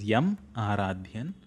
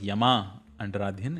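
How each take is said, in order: First: No extra vowel follows 'Yam'. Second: An extra 'a' vowel follows 'Yam'. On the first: The speaker calls it right. "it is" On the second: The speaker calls it wrong. "It is not"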